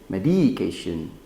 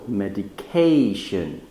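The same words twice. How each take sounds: First: The stress is not on the third syllable. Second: The stress is on the third syllable. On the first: The speaker calls it wrong. "it sounds funny and it can confuse people" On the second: The speaker calls it right. "the stress is in the third syllable"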